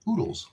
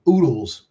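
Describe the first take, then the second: First: Put-on soft, higher little-girl oodles; imitating daughter. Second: Said in the usual way. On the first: Father borrows his daughter's word, oodles said softly and higher. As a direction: say oodles like a child would, softly. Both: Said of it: "I just used my daughter's word".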